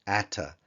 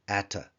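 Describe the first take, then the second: No difference in how they are said.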